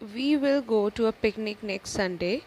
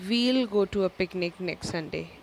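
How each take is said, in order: First: We and will are said as two full words. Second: We and will merge into one short syllable.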